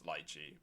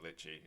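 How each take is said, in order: First: The first vowel is long, as in 'lie'. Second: The first vowel is short, as in 'lit'. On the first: The speaker calls it right. "It's Lychee" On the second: The speaker calls it wrong. "I'm mispronouncing Litchi"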